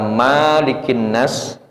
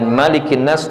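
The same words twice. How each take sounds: First: The first vowel is held long. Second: The first vowel is kept short.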